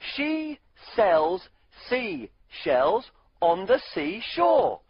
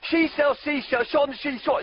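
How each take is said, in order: First: It is said at a normal speed. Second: It is said really fast.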